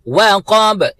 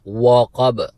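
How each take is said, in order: First: The opening w sound is light and thin. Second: The opening w sound is heavy and full-mouthed. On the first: The speaker calls it right. "तो हम वाव को बारीकी के साथ, कौफ को full mouth" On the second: The speaker calls it wrong. "वो वाव को भी पुर तरीके से अदा करते हैं"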